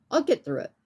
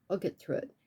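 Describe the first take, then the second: First: Said in the usual way. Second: Much softer, turned inward; soft private echo of the line before; quiet to herself. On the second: Real, not acted. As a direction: murmur it as if only to yourself. Repeats reassurance to herself.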